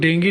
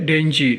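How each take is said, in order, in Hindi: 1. बीच का व्यंजन कड़ी g ध्वनि है। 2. बीच का व्यंजन नरम j ध्वनि है। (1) "इसको डेंगी नहीं पढ़ते" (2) "बल्कि डेंजी"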